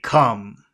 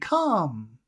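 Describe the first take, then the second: First: It is said in a serious, low tone. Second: It is said in a friendly, higher tone. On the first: It is a threatening order. The speaker calls it right. "He would say come. ... in a low tone, low music, not high music" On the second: It is a friendly invitation. The speaker calls it wrong. "he wouldn't say it in a friendly way. He wouldn't say come"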